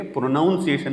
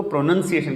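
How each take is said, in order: First: پروناؤنسیشن with "noun" inside; wide "ow" in پروناؤنسیشن; mispronounced pronunciation. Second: پروننسیشن with "nun" inside; short second vowel in پروننسیشن; correct pronunciation. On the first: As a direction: say "pro-noun-si-ation" for پروناؤنسیشن. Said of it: "نہیں کہیں گے". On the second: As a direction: say "pro-nun-si-ation" for پروننسیشن. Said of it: "تو اس کو پروننسیشن کہیں گے". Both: Shown as a demonstration.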